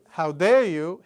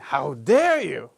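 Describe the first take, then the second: First: It is said flatly, without acting. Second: It is said dramatically, acted out.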